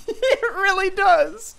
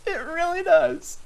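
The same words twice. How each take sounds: First: Mock squeaky agreement. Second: Said in the usual way. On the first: Teasing the bad audio.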